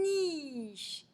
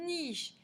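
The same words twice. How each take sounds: First: NICHE with n and i held very long; elongated word. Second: NICHE said higher, much less drawn out; shorter emphasized repeat. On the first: Teacher shows the sound n, "niche" drawn right out. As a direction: stretch "niche" slowly from its n. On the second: Teacher repeats after isolating n, "niche" higher and shorter. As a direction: lift "niche" with a clear n start. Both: Shown as a demonstration. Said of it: "c'est bien le son ne".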